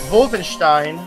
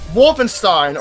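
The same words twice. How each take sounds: First: It is said with a German pronunciation. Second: It is said with an English pronunciation.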